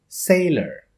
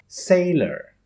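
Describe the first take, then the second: No difference in how they are said.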